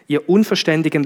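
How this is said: It is said in a flat, neutral tone. "Jetzt habe ich es möglichst versucht, neutral zu sagen"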